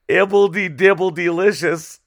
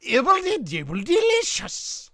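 First: Wizard catchphrase. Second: High, sing-song wizard catchphrase. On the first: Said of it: "It's fun to say". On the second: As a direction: squeak it like a goofy wizard. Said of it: "You wanna try?". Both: Pretend.

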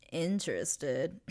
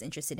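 First: INTERESTED stretched out slowly with a rising end; sarcastic emphasis. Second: Said in the usual way. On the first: Real, not acted. Host doubting Dorsey was truly interested, slow sarcastic "interested". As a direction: draw out "interested" as if in doubting quotes. Sarcastic repeat, then "not really.

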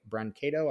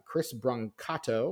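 First: "Brancato" with a long A, bran-KAY-toe; alternative name pronunciation. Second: "Brancato" with an AH in the middle, bran-KAH-toe; unsure name pronunciation. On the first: Podcaster second-guessing a screenwriter's surname, "Brancato" as bran-KAY-toe. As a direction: say "Brancato" with KAY as the middle syllable. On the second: Podcaster trying out a screenwriter's surname, "Brancato" as bran-KAH-toe. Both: Shown as a demonstration. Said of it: "not sure how to pronounce that".

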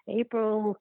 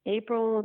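No difference in how they are said.

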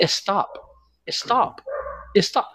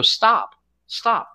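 First: Put-on "Stop" as high, softer Spanish-accented "eh-stop"; wife's Spanish-accented "stop". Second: "Stop" said high, without any leading vowel; plain English "stop". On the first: Husband imitates angry wife, Spanish-accented "eh-stop". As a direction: add a Spanish-accent vowel before "Stop": "eh-stop". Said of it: "but she doesn't say stop". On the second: Retold or imitated. Husband shows what angry wife doesn't say, standard "Stop". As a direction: say "Stop" high, with a clean S start. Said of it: "when she gets angry".

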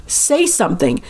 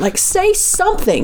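First: Said in the usual way. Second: Retold yelling. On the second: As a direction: imitate yelling for a response, slowly and high. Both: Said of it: "yelling at her all of these things".

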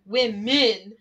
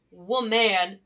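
First: "women" split firmly into wim-min; over-pronounced plural. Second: "woman" split slowly into wo-man; over-pronounced singular. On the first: Pupil correcting his teacher, "women" punched as wim-min. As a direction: sound out "women" in two punched syllables as the correction. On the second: Pupil correcting his teacher, "woman" pulled apart as wo-man. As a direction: sound out "woman" in two weighted syllables as the wrong word. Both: Retold or imitated. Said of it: "No, not woman".

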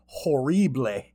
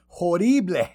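First: Put-on Cajun "ho-REE-blay"; hammed-up Cajun pronunciation, stretched final syllable; mock Cajun accent. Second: Louder, higher fake Cajun with a tapped r; over-the-top Cajun mockery; exaggerated mock Cajun accent. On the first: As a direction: mangle it in a fake Cajun accent. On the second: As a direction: ham up the bad Cajun "ho-DEE-blay". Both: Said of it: "Cajun accent".

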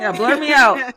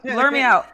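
First: Said in the usual way. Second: Louder, pleading to be hidden; loud mock plea. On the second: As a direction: call it out, half laughing.

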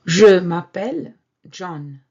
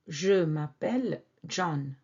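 First: "Je m'appelle John" said much louder; loud model line. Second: Said in the usual way. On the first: Shown as a demonstration. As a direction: announce "Je m'appelle John" loudly. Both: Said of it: "they would mention their name".

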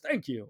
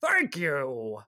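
First: Said in the usual way. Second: Exaggerated frail old voice; very old man. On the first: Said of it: "instead it's just". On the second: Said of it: "he sounded even older".

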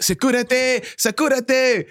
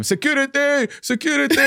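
First: High mock call for security; teacher calling security, mock high; teacher original call. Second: High mocking call for security; students mimicking teacher. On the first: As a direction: cry out for security. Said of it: "he'd be like". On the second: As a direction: parrot the teacher's squeaky cry. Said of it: "they just mimic him".

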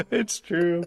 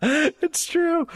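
First: Said in the usual way. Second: Excited. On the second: Real, not acted. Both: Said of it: "laughing admission, repeated".

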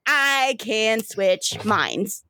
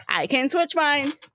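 First: Very slow, savored words; drawn-out boast. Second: Playful taunt. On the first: Sister showing off her mind switch, slow and drawn out. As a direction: stretch each word out proudly. River gleefully shows off her power. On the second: River repeats it with a dance. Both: Acted.

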